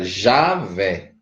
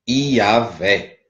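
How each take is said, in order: First: The name begins with a 'zh' sound. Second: The name begins with an 'ee' glide sound. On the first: This is the form adapted to Portuguese. "para o português fica Javé" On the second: This is the original Hebrew form. "que em hebraico não tem J"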